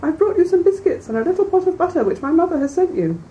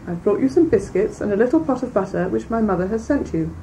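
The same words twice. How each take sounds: First: High, put-on little-girl voice from the wolf; the wolf keeps up the sweet high pretense; wolf pretending to be the girl at the door; disguised wolf voice. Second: Near-natural, lightly voiced child; real girl at the door, lightly voiced; the girl's own voice. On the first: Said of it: "disguising his voice". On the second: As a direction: say it plainly as the real granddaughter. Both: A narrator's reading.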